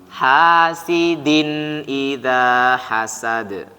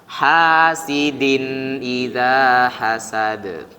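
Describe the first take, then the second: No difference in how they are said.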